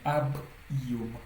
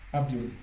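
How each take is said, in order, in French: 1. Le b est séparé de la voyelle suivante. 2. Le b glisse doucement vers la voyelle suivante. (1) "Donc ça sépare" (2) "Sans le signe du, on allait lire ça"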